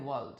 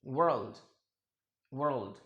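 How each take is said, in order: First: वर्ल्ड without r, "wuld"; British pronunciation. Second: वर्ल्ड with the r said; वर्ल्ड, r rolled into the l; American pronunciation. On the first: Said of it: "British English में इसे कहते हैं". (British उच्चारण में वर्ल्ड) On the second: (American उच्चारण में वर्ल्ड) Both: Shown as a demonstration.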